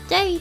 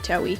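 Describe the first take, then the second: First: The name is said without a w sound. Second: The name is said with a w sound. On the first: This is how Japanese speakers usually say it. "they usually usually pronounce tewi as day" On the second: This is the speaker's own habitual way of saying it. "I always say tewi"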